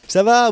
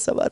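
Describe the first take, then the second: First: It is said with strong, projected energy. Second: It is said casually with little energy. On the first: The speaker calls it right. "commence à parler avec mes tripes" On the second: The speaker calls it wrong. "on ne parle pas euh, comme ça, tout simplement"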